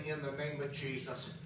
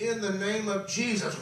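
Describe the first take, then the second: First: Softer, lower, hardly wanting to say it; reluctant, weak. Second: Firmer and brighter, a step up in force; bold declaration. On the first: Preacher forcing out a prayer at his weakest, faint and reluctant. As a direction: let it slip out with no strength. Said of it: "I did not even want to say". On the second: Preacher declaring the name of Jesus in faith, firm and rising. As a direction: say it like you finally believe it. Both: Retold or imitated.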